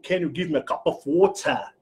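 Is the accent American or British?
British. It is said in a British accent.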